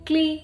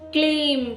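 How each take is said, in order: First: The final m sound is dropped. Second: The final m sound is said clearly. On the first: The speaker calls it wrong. "ക്ലീ എന്നായി പോകുന്നില്ലേ? അങ്ങനെയല്ല" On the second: The speaker calls it right. "വ്യക്തമാക്കണം"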